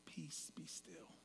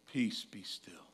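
First: Slow breathy whisper, very soft; calm whisper. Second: Slow, low and soft, gently soothing; soft calm Jesus. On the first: Mocking the movie Jesus calming the storm, slow whisper. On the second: Imitating a soft-spoken movie Jesus stilling storm, slow and soft. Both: Retold or imitated. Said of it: "in a very Jesus-y, calm voice".

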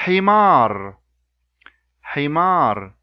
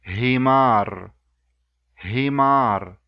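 First: "himar" with a throaty pharyngeal h; Arabic h in himar. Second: "himar" with a light English h; plain breathy English h on "himar". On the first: Teacher contrasting the two h sounds in one word. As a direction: squeeze the h of "himar". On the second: Teacher giving the English-h version for comparison. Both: Shown as a demonstration. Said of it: "I'll repeat that, the words with the two sounds".

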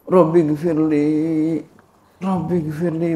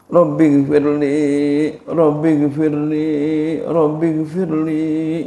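First: Said in the usual way. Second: Baca lambat dan khusyuk, kata demi kata; doa pelan. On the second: Shown as a demonstration. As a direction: Rabbi gfirli diulur pelan-pelan. (membaca doa pelan, penuh penghayatan) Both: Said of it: "Baca tiga kali".

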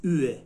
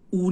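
First: "اوه" with dotted ü, not oo; correct ü sound. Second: "او" with undotted u sound; plain u, mistaken. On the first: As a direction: say "اوه" as a fronted, rounded ü. («اوه» با صدای ü) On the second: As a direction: say "او" as a back Persian oo. («او» مثل «او»ی فارسی) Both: Shown as a demonstration. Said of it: "او نیست، اوه".

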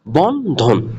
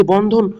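First: বন্ধন broken into two drawn beats, বন and ধন; slow teacher's demo of বন্ধন as বন-ধন; split into syllables. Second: Said in the usual way. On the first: Shown as a demonstration. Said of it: "শব্দে দুইটা অক্ষর". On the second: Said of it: "এই যে বন্ধন লেখাটি".

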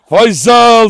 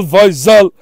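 First: Loud, high call across the yard; calling out the dog's name. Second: Said in the usual way. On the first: Real, not acted. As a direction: shout the name to call him over. Calling the dog excitedly. (köpeği yüksek sesle çağırma)

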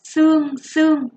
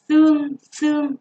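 First: "Xương xương" with a crisp s sound, said high and loud; emphatic teacher model; careful pronunciation. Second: "xương xương" called out high and loud; name "xương xương" emphatically; first listing; word listed for pupils. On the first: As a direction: hit the s of "Xương" hard. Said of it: "chú ý cho cô âm sờ". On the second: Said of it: "Các em chú ý cho cô từ". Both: Shown as a demonstration.

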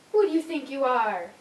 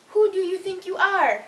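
First: Said in the usual way. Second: Higher, louder mock outrage; loud indignant scolding. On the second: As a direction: demand it, affronted. Louder repeat scolding the dog.

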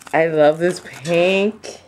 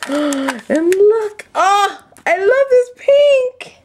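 First: Said in the usual way. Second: Gasp, then high-pitched thrilled gushing; thrilled squeal. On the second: Real, not acted. Crafter spotting the pink doilies, thrilled squeal.

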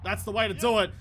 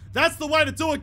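First: Said in the usual way. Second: Higher, louder cheer of praise; excited cheer. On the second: Real, not acted. Gamer cheering his batsman's shot, excited praise.

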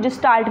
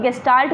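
First: Gestalt said with a soft j, as in jest: "jistalt"; soft j jestalt. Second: Gestalt said with a hard g, as in go: "gestalt". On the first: Teacher showing students the other way to say it, gestalt with a j sound. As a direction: start gestalt on a j sound, jis-talt. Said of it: "कुछ लोग gestalt भी पढ़ते हैं". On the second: Teacher showing students one way to say it, gestalt with a hard g. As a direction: start gestalt on a hard g sound, ges-talt. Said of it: "English में कुछ लोग gestalt भी पढ़ते हैं". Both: Shown as a demonstration.

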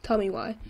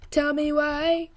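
First: Said in the usual way. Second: "Tell me why" stretched slow and higher; drawn-out repeat. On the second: Pretend. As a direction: draw out "Tell me why", lifting the pitch. Repeats it drawn out, then apologizes.

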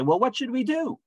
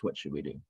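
First: Very high-pitched acted question; crowd's plea. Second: Low, soft retold question; subdued question. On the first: People asking Peter what to do, high-pitched mock plea. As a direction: imitate a crowd pleading, pitched way up. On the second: Crowd cut to the heart asking Peter, low and subdued. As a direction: drop it low and quiet, as the stricken crowd.

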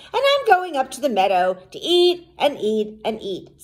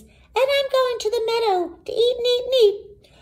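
First: Middle-sized goat, moderately raised pitch; not-so-small goat voice. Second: Very high, fast little goat; very small goat voice. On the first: Second goat telling troll his plans, not-so-small voice. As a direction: lift the voice a little for the bigger goat. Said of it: "his voice was not so small". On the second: Youngest goat telling troll his plans, very small voice. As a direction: squeak it quickly like a tiny kid goat. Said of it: "in his very small voice". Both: A narrator's reading.

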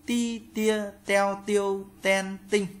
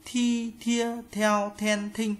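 First: "Ti, tia, teo, tiêu, ten, tinh" high and level, t without air; high, even syllables "Ti, tia, teo, tiêu, ten, tinh", no puff on the t; unaspirated t drill. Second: "Thi, thia, theo, then, thinh" high and level, breathed-out t; aspirated t drill. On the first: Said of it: "Chữ giờ các bạn đọc thành chữ tờ". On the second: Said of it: "Chữ tờ các bạn đọc thành chữ thờ". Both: Shown as a demonstration.

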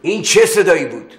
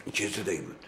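First: High, loud insistent question; father pressing the son about the noise; loud demand. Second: Soft, low suspicious murmur; father wary of a hidden sound; hushed question. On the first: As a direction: demand the answer sharply. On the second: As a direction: ask under your breath, listening. Father hears a noise. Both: Acted.

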